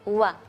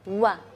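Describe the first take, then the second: Both takes have the same delivery.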